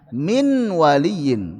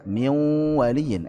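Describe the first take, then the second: First: The n is pronounced clearly before the w. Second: The n merges into the following w. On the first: The speaker calls it wrong. "enggak enak" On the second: The speaker calls it right. "enak, lebih ringan"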